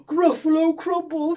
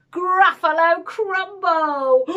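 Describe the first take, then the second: First: Loud, horrified monster exclamation; gasp, then blurt it back in alarm; hammed-up creature panic; frightened echo. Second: Loud, higher, slowly drawn-out menace; relishing, drawn-out threat; bold threat. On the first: Gruffalo repeats it, frightened. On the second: Acted. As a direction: announce the dish slowly, to scare the monster. Mouse threatens to eat Gruffalo.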